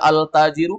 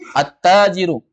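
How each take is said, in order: First: The l is clearly pronounced before the t. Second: The l merges into a doubled t sound. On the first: The speaker calls it wrong. "Boleh dibaca al-tajiru? Tidak boleh" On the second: The speaker calls it right. "huruf ta ketika kemasukan al langsung masuk"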